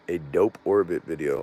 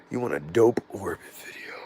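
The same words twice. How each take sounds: First: Said in the usual way. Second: Hushed whisper, repeating the request to himself. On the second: Real, not acted. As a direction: breathe it out like a note to self. Repeats viewer's request under breath.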